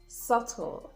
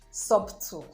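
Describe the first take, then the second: First: The b sound is silent. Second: The b sound is pronounced. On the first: The speaker calls it right. "The B is also silent after the letter T" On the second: The speaker calls it wrong. "So it's not"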